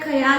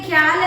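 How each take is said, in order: First: A vowel splits the start into two syllables. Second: The word starts with a tight kh-y cluster. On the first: "ചിലയിടത്ത് എന്താ പറയാ ഖയാൽ എന്ന് pronounce ചെയ്യും" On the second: "ഖ്യാൽ എന്നുള്ളത്"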